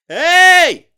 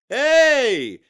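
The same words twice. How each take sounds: First: It is shouted as an unrestrained, strained yell. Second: It is called out strongly but with control. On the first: The speaker calls it wrong. "it's becoming a yell like, ... Now that's way too much" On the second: The speaker calls it right. "You've got to do it in a more controlled way"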